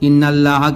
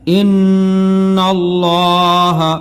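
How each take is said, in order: First: The L sound is thin and light. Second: The L sound is heavy and full. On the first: The speaker calls it wrong. "जो किरा कारी से नहीं पढ़ा वो इन्नल्लाह पढ़ेगा" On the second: The speaker calls it right. "लाम को पुर पढ़ना है"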